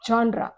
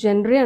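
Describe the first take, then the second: First: It begins with a 'zhon' sound. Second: It begins with a 'jen' sound. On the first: The speaker calls it right. "అది జాన్రా" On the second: The speaker calls it wrong. "మనం జనరీ అంటాం జనరల్గా"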